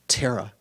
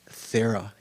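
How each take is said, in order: First: It begins with a breathy t sound. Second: It begins with a soft th sound. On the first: The speaker calls it right. "it's Terra, like an aspirated T" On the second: The speaker calls it wrong. "it's not pronounced Thera"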